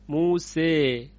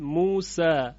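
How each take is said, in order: First: The final vowel is raised fully toward e. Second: The final vowel is an open a sound. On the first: "این اماله تامه یا کبراست" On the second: "این فتح هست"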